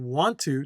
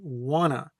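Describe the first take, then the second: First: Both words are said fully and separately. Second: The words are blended into one reduced word. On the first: "instead of saying want to" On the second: "especially informally. This is more informal"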